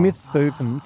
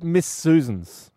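First: The s sounds are lisped like th. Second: The s sounds are clear hissing sounds.

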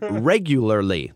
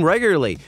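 First: The word is carefully enunciated, every syllable clear. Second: The word is slurred, with syllables run together. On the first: The speaker calls it right. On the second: The speaker calls it wrong. "You kind of slurred that"

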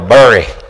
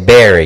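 First: Bury is said to rhyme with furry. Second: Bury is said to rhyme with berry.

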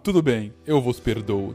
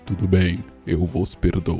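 First: It is said in a normal voice. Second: It is said in a solemn, put-on Jesus voice.

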